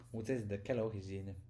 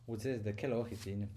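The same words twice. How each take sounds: The two takes are said the same way.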